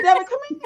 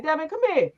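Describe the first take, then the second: First: Much higher, louder call across the room; calling for her son. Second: Said in the usual way. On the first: Retold or imitated. Mother calling her son over, high summoning call. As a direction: call him over like a parent. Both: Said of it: "Now I'm the parent".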